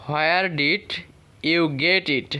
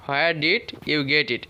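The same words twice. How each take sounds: First: Said in the usual way. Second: Slowly and clearly, word by word; slow it down so learners can follow; slow model reading. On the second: Shown as a demonstration. Teacher repeating the question for students, slowly. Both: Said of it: "এইভাবে করব".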